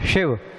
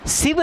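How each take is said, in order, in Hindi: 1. पहला व्यंजन तालव्य sh है। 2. पहला व्यंजन दंत्य s है। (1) "ये तालव्य श है" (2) "ये तो दंती स हो गया"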